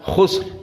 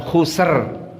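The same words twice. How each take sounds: First: The final r is closed with no vowel. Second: The final r is followed by an i vowel. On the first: The speaker calls it right. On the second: The speaker calls it wrong. "bukan khusr. Jadi kasrah kalau begitu"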